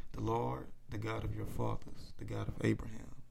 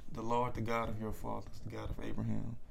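The two takes are said the same way.

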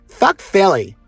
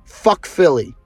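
First: It is said in a put-on imitation voice. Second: It is said in the speaker's ordinary voice.

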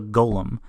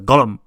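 First: It is said in a plain, natural voice. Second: It is said in an imitated character voice. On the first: "Shale is a golem" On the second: "or as Shale pronounces it"

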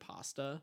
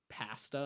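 First: The word is said in a non-Canadian accent. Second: The word is said in a Canadian accent. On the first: "instead of pasta" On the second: "they say like pasta"

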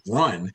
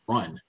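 First: It is said somewhat louder. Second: It is said quietly.

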